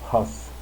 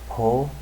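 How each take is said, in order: First: It has the standard French pronunciation. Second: It has an old Quebecois-style pronunciation. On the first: This is the commonly accepted modern pronunciation. "the more commonly accepted pronunciations" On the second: This is how the old King's French may have sounded. "There's no way that Louis the fifteenth said"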